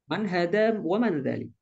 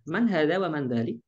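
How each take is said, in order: First: Man hada wa man dzalik with a falling statement tune at the end; statement intonation. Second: Man hada wa man dzalik with a rising question tune at the end; question intonation. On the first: Teacher contrasting statement and question tunes. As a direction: state it, letting dzalik fall. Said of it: "Intonasi juga nanti ya". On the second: Teacher showing the class a rising question tune. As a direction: ask it, letting dzalik rise. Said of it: "Intonasi juga nanti ya, into-, intonasi bertanya". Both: Shown as a demonstration.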